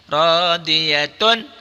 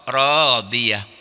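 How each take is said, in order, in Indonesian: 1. Kata ini berakhir dengan bunyi 'atun' penuh. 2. Kata ini berakhir dengan bunyi 'ah' pendek.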